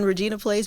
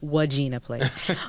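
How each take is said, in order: First: The name begins with an R sound. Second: The name begins with a W sound. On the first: The speaker calls it right. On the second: The speaker calls it wrong.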